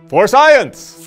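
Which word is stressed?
Science. The emphasis falls on the word science.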